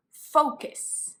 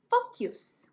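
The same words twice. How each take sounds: First: Said in the usual way. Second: "focus" with an added y sound before the us; mispronounced focus. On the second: Shown as a demonstration. Teacher showing learners a common error, mispronounced "focus" as FOK-yus. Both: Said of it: "It's not".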